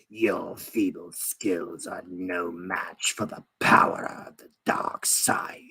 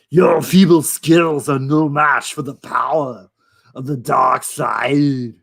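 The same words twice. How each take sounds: First: It is said in a raspy, sinister old voice. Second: It is said in a heavy Austrian-style accent.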